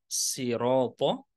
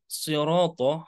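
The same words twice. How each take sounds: First: The word begins with a plain light s. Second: The word begins with a heavy emphatic s. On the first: "bisa dibaca dengan menggunakan sin" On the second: "huruf so, sode"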